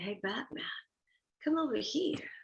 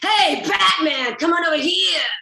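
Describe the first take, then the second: First: It sounds seductive and inviting. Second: It sounds aggressive and repellent.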